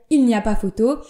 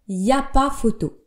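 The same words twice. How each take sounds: First: The opening 'il' is fully pronounced. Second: The opening 'il' is dropped entirely. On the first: It is careful, standard speech. "pour parler euh, correctement dans le langage le plus pur" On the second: It is everyday casual speech. "la plupart des gens à l'oral vont dire"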